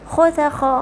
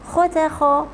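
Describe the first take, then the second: No difference in how they are said.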